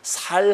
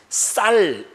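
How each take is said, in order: First: The word starts with a plain s sound. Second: The word starts with a tense s sound. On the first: The speaker calls it wrong. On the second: The speaker calls it right.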